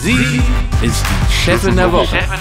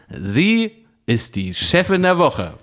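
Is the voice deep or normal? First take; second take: deep; normal. First: It is said in a deep jingle voice. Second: It is said in a normal speaking voice.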